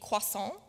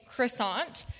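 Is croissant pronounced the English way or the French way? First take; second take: French; English. First: The word is said with a French pronunciation. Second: The word is said with an English pronunciation. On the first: "the correct French pronunciation, which would be croissant" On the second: "most people would probably say croissant"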